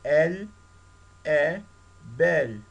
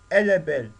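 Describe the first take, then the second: First: The words are said separately without linking. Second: The words are linked together with a liaison.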